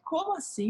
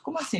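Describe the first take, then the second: First: "Como assim?" shooting up high in outrage; retold indignation, pitch soaring; incredulous, high "Como assim?"; indignant. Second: "Como assim?" jumping up high in disbelief; stunned, high "Como assim?"; shocked. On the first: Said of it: "Eu saí inconformada daquele lugar". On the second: Retold or imitated. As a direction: retell the shock, pitch leaping. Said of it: "E eu chocada".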